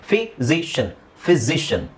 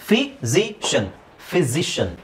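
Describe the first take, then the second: Both takes have the same delivery.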